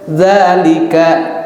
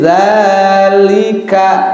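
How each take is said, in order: First: The first vowel is said short. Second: The first vowel is held long. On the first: The vowel mark is written slanted. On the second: The vowel mark is written upright. "Ya, panjang kan?"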